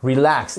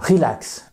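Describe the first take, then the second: First: RELAX stressed on LAX; "Relax" with the weight on LAX; stress on second syllable. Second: RELAX stressed on RE; "relax" wrongly front-stressed; wrong first-syllable stress. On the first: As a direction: say re-LAX, weak first syllable. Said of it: "la seconde syllabe est accentuée". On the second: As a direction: say RE-lax, dropping off on LAX. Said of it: "et non pas relax". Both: Shown as a demonstration.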